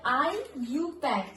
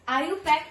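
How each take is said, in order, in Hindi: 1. शुरुआत को अक्षर 'I' और 'U' की तरह बोला जाता है। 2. शुरुआत एक अक्षर में मिलाकर बोली जाती है, 'ayu'। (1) "ये होता है इसका प्रोनाउंसिएशन" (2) "आयु पैक ऐसे नहीं बोलते हैं"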